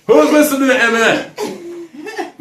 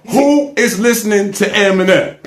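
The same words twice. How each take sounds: First: High, drawn-out squeal of disbelief; mock incredulous. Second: Said in the usual way. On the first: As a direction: stretch the question out slowly and high, with a laugh. Incredulous mock repeat of question.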